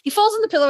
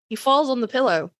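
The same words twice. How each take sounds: First: The phrase is spoken quickly. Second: The phrase is spoken slowly. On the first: The speaker calls it wrong. "I said that too quickly" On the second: The speaker calls it right. "I will say it again slowly"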